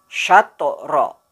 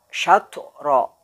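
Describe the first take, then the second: Both takes have the same delivery.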